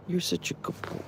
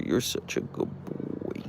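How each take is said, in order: First: Much higher, softer pet voice; squeaky praise. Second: Slow whispered praise to the dog. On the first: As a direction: squeak it sweetly to the dog. Praising her dog. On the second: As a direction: breathe it softly to him. Soothing her dog. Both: Real, not acted.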